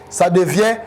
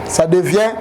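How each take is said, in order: No difference in how they are said.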